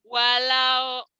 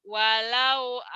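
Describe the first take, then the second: Both takes have the same delivery.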